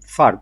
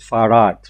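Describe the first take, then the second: First: The name is said as one short, firm syllable. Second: The name is said with an added vowel, as two syllables. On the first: This is the original Arabic form of the name. "they cannot make it firm Fard" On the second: This is how the name was adapted by others. "so they call it Farad"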